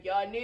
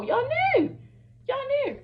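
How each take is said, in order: First: Said in the usual way. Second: Much higher, louder, stretched out y'all knew; high accusing squeal. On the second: Real, not acted. Calling out friends who hid the plan, in a high squeal. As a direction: jab it at them in a high squeal.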